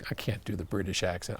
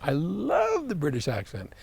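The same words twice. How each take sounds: First: Said in the usual way. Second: Lightly put-on British accent, higher; a fond stab at a British accent; mock British accent. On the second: Shown as a demonstration. Host admiring Oliver's country in mock British accent.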